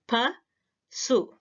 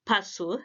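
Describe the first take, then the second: First: Pa, su split into two separate syllables with a pause. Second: Said in the usual way. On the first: Shown as a demonstration. Teacher splitting pasu into syllables for students. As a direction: break pasu apart as pa, then su. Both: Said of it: "so the word pasu has two syllables".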